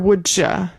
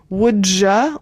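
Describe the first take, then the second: First: The 'ya' starts with a CH sound. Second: The 'ya' starts with a J sound. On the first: "kind of like cha cha cha" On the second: "like a J, like jam"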